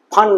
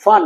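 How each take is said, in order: First: ফান with an aspirated Bengali 'ph' at the start; ফান as the mistaken 'phan'; wrong pronunciation. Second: ফান modelled as English fun; correct pronunciation. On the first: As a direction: say ফান as 'phan', lips popping. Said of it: "ফান নয়". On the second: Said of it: "ফান নয়, ফান". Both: Shown as a demonstration.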